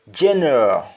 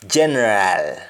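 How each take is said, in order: First: GENERAL with a reduced last syllable; English-style weak ending on GENERAL; English pronunciation. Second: GENERAL ending in open "aal"; Jamaican pronunciation. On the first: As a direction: say GENERAL as "jenruh". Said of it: "instead of saying all". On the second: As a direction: say GENERAL as "jenrahl". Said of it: "we say al". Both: Shown as a demonstration.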